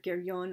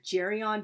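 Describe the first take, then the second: First: The name is said closer to its Greek origin. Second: The name is said the usual Italian way. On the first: This follows the name's Greek origin. "since it's like originally a Greek name, I pronounce it Geryon" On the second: This is how many Italian speakers say it. "a lot of Italian speakers pronounce the name of this monster Geryon"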